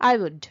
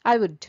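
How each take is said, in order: The two takes are said the same way.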